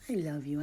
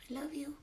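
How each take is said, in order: First: Said in the usual way. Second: High, softer loving coo; cooing love to a pet bird. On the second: Real, not acted.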